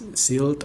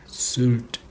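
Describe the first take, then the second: First: The vowel is a plain i sound. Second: The vowel is a rounded ü sound. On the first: The speaker calls it wrong. "bukan Silt atau apa" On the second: The speaker calls it right. "karena yang itu Y"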